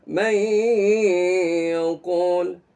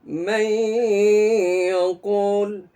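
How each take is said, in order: Both takes have the same delivery.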